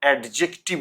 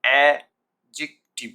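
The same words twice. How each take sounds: First: অ্যাডজেক্টিভ with a sounded d, ad-jek-tiv; deliberate ad-jek-tiv for অ্যাডজেক্টিভ; wrong pronunciation. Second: Slow, loud a... jik... tiv for অ্যাডজেক্টিভ, d silent; repeat-after-me অ্যাডজেক্টিভ, a-jik-tiv; syllable-by-syllable model. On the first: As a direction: pronounce the d before j in অ্যাডজেক্টিভ. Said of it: "অ্যাডজেক্টিভ নয়". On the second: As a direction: split অ্যাডজেক্টিভ into three beats with no d. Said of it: "আমার সাথে উচ্চারণ করুন". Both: Shown as a demonstration.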